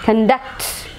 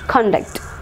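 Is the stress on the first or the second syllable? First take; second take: second; first. First: The stress is on the second syllable. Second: The stress is on the first syllable. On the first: It is a verb: to carry out or lead. "So the stress will be on the second syllable" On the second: It is a noun: a person's behaviour. "If it is a noun, stress should be marked on the first syllable"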